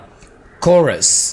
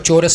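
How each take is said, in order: First: The word begins with a k sound. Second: The word begins with a ch sound. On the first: The speaker calls it right. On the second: The speaker calls it wrong.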